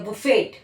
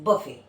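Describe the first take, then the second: First: The final t sound is pronounced. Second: The final t sound is silent. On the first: The speaker calls it wrong. "It's not बुफे या बुफेट" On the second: The speaker calls it right. "टी यहाँ पे भी silent है"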